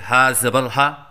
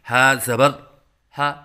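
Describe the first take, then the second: First: All parts are run together in one go. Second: Each part is said separately with pauses. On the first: "एक साथ से करवाएं" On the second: "अलग अलग से करवाएं"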